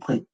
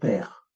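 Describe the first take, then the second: First: The vowel comes only after both consonants. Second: A vowel sits between the two consonants. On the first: The speaker calls it wrong. "ou pré" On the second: The speaker calls it right. "On va mettre le E muet entre les consonnes. On va dire père"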